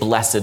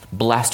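First: The word has its more poetic pronunciation. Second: The word has its everyday, non-poetic pronunciation. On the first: It suits a poetic setting. "we tend to say blessed when it's a more poetic setting" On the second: It suits a non-poetic setting. "blessed when it's not"

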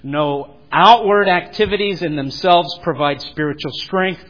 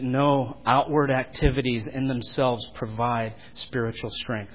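First: The phrase is spoken at a louder volume. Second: The phrase is spoken at a normal volume.

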